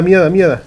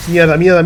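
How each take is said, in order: First: Repeated shouted curse, falling end; loud cursing. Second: Shouted swearing, higher pitch; panicked yell of curses; loud cursing. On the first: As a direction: yell the swear in panic. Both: Real, not acted. Sudden danger in game.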